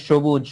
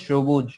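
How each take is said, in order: Both takes have the same delivery.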